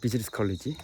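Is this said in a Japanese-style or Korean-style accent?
Korean-style. It is said with a Korean-style English pronunciation. The speaker calls it right.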